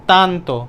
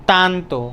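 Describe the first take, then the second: No difference in how they are said.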